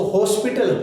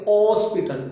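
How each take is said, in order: First: हॉस्पिटल said with a clear h at the start, hos-pi-tal; h pronounced. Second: हॉस्पिटल said starting on the vowel, os-pi-tal, no h; silent h. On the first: Teacher showing students the wrong हॉस्पिटल, h sounded. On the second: Teacher showing students the right हॉस्पिटल, h left silent. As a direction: drop the h of हॉस्पिटल and open on the o. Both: Shown as a demonstration. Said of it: "हॉ, हॉ नहीं बोलेंगे".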